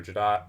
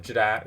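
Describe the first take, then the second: First: Jadat ending in an open "ah", like "dot"; alternative pronunciation. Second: Jadat ending in a short "a" as in cat; first pronunciation. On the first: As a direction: say Jadat as "juh-DAHT". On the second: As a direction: say Jadat with "-dat" rhyming with "hat". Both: Shown as a demonstration. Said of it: "I don't know how people pronounce it".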